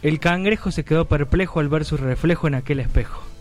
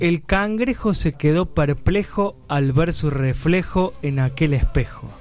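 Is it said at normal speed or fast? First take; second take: fast; normal speed. First: It is said quickly. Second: It is said at a normal pace.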